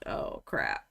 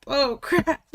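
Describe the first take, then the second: First: Breathy whisper of dread. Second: Higher, louder alarmed cry; rising panic. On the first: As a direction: whisper it in quiet panic. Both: Retold or imitated. Panicking over others' submissions.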